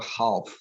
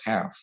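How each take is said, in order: First: The L sound is pronounced in the word. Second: The L sound is left out of the word. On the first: The speaker calls it wrong. "umumnya biasanya kita bacanya jadi health atau half" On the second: The speaker calls it right. "L-nya itu nggak usah dibaca"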